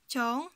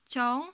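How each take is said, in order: Both takes have the same delivery.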